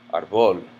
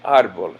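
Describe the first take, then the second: First: The stress is on the second syllable. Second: The stress is on the first syllable. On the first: The speaker calls it wrong. "the natural stress of this word would in would be on the second syllable" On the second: The speaker calls it right. "People say árbol"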